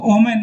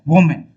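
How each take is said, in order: First: The word starts without a w sound. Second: The word starts with a w sound. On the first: The speaker calls it wrong. "इसको ओमेन नहीं बोलते हम लोग" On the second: The speaker calls it right. "इसको बोलते हैं वोमेन"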